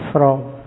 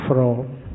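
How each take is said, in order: Both takes have the same delivery.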